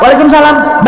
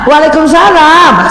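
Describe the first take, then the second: First: It is said in a firm, businesslike, neutral voice. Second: It is said in a sweet, coquettish, pampered voice. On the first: The speaker is talking to a male work superior. "harusnya siapa?" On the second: The speaker is talking affectionately to her husband. "gadis-gadis Korea itu suka manja-manja gitu kan? ... Sama kan?"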